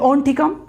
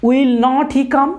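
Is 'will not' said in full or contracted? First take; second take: contracted; full. First: The words will not are contracted to won't. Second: The words will not are said in full. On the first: The speaker calls it right. "উইল নটকে শর্টে বলে ওন্ট" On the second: The speaker calls it wrong. "কথাটা বলতে একটা সময় লেগে যায়"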